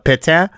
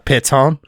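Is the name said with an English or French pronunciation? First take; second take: French; English. First: The name is said with French pronunciation. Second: The name is said with English pronunciation. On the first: The speaker calls it right. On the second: The speaker calls it wrong.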